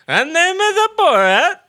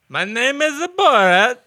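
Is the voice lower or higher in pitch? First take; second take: higher; lower. First: The Borat voice is pitched higher. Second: The Borat voice is pitched lower.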